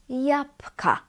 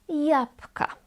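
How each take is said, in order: Both takes have the same delivery.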